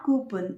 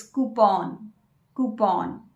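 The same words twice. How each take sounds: First: Coupon said KYOO-pon; wrong pronunciation. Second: Coupon said slowly as KOO-pon, no Y; correct pronunciation. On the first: Teacher showing the wrong form, coupon as KYOO-pon. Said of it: "It's not". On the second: Teacher giving the correct form slowly, coupon as KOO-pon. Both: Shown as a demonstration.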